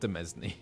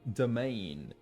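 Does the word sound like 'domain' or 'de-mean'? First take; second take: de-mean; domain. First: The word ends sounding like 'mean'. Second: The word ends sounding like 'main'. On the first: The speaker calls it wrong. "It's not demesne" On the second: The speaker calls it right.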